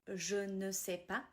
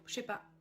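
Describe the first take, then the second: First: It is said slowly with every word full. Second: It is said quickly and run together.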